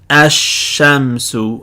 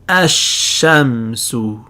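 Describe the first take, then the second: Both takes have the same delivery.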